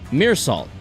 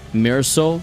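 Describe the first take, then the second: First: The second word sounds like 'salt'. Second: The second word sounds like 'soul'. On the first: The speaker calls it wrong. "it's not even pronounced like salt" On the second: The speaker calls it right. "It's like Mirror Soul"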